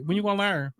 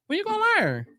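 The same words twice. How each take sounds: First: Said in the usual way. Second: Much higher, incredulous when you gonna learn; high exasperated scolding; exasperated high repeat. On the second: Real, not acted. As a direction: squeal it in disbelief.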